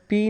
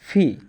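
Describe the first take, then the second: First: It starts with an unaspirated p. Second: It starts with a breathy aspirated p. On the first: The speaker calls it wrong. "পি এর উচ্চারণটা পি না হয়ে" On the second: The speaker calls it right. "হবে ফি"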